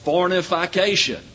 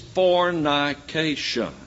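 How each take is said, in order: First: It has five syllables, with an extra syllable. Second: It has four syllables, with no extra syllable. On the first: The speaker calls it wrong. "I keep hearing it pronounced fornification. There is no such word" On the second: The speaker calls it right. "It is fornication"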